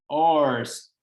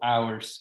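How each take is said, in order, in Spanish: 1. Suena como 'yours' sin la 'y'. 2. Suena como la palabra 'hours'. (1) "lo único que hacemos en la pronunciación de uno y de otro es agregarle la Y" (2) "O ours, que sería otra forma correcta de decirlo también... similitud con el cómo se escriben las horas"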